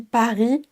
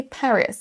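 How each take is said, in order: First: Paris the French way, silent s; firm French R. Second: Paris in English with a soft r and sounded s; English Paris, gentle r. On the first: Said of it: "on a un R assez franc". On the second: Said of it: "On a un R beaucoup plus doux". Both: Shown as a demonstration.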